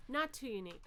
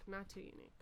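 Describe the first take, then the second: First: Said in the usual way. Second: Softer muttered repeat of the words "Not too unique"; quiet. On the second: Real, not acted. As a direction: echo "Not too unique" under your breath.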